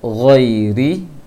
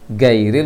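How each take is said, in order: First: It starts with a throaty, airy gh sound. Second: It starts with a plain hard g sound. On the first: The speaker calls it right. "jangan dibaca gairil" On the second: The speaker calls it wrong. "orang banyak baca gairil. Gairil itu huruf G"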